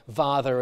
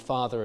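First: The first sound is a voiced fricative. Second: The first sound is a voiceless fricative. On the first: "this voicing of initial fricatives" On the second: "rather than"

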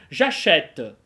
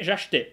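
First: The vowel after 'ach' is an open è sound. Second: The vowel after 'ach' is a weak, reduced e. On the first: The speaker calls it right. "Говорит француз" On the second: The speaker calls it wrong. "Оп, нет, неправильно"

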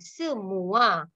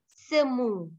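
First: The word ends with a gliding 'mua' sound. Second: The word ends with a plain 'mu' sound. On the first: The speaker calls it right. "this is not semu, semua" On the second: The speaker calls it wrong. "They always say semu"

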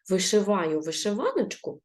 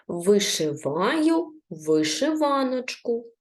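First: The phrase is read very quickly. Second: The phrase is read slowly and carefully. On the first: "А тепер прочитаємо дуже швидко" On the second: "прочитаємо ще раз повільно разом зі мною"

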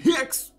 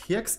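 First: The word is screamed loudly. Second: The word is said at normal volume. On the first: It names the capital-letter type. "you have to scream hex" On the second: It names the lowercase type. "saying it normally"

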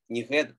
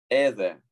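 First: The word begins with an h sound. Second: The word begins with a plain vowel. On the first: The speaker calls it wrong. "Не геде" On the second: The speaker calls it right. "там тонкое придыхание еще"

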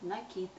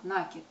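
First: The stress is on the second syllable. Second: The stress is on the first syllable. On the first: The speaker calls it right. "правильно говорить накид" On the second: The speaker calls it wrong. "с ударением на первый слог"

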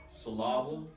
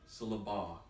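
First: The stress is on the second syllable. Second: The stress is on the third syllable. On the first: "I moved the accent from each of those syllables" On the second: "I moved the accent from each of those syllables"

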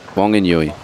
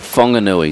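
First: The name begins with a W sound. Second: The name begins with an F sound. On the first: The speaker calls it wrong. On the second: The speaker calls it right.

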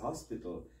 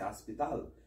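First: It is said with a standard pronunciation. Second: It is said with a Jamaican pronunciation. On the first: "and other people say hospital" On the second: "like we just say hospital"

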